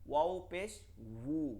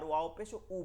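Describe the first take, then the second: First: The last syllable starts with rounded lips. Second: The last syllable is a plain throat vowel. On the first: The speaker calls it right. "দুইটা ঠোঁট গোল করে বলতে হয় ওয়াও পেশ বু" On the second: The speaker calls it wrong. "অনেকে কি ভুল করেন"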